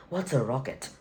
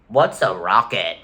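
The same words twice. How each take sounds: First: Quiet, exaggerated mock British accent; horrible British accent. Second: Slow mock British accent. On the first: Correcting the British government impression, in a horrible British accent. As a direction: redo it softly in a bad British accent. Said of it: "Horrible accent". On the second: Streamer mocking the British government, in a bad British accent. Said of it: "the British government saying".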